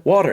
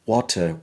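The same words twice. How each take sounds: First: "water" with flapped T and sounded R; American pronunciation. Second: British "water", crisp T, no R; British accent. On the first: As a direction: end "water" on a clear R. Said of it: "When I speak with the American". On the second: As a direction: end "water" on an open vowel, British style. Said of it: "in the British version". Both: Shown as a demonstration.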